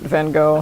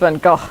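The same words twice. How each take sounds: First: The name is said with an American pronunciation. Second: The name is said with a non-American pronunciation. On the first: The speaker calls it wrong. "the uneducated American way is pr- is to pronounce it Van Gogh" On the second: The speaker calls it right. "but it's Van Gogh"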